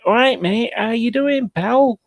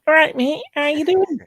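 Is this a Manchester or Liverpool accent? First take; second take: Manchester; Liverpool. First: It is said in a Manchester scally accent. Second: It is said in a higher-pitched Liverpool accent.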